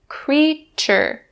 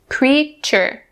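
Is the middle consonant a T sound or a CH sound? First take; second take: CH sound; CH sound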